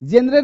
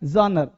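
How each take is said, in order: First: It starts with a hard 'j' sound. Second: It starts with a soft 'zh' sound. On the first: The speaker calls it wrong. "जेनरे नहीं" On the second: The speaker calls it right. "ज को झ का sound देना है"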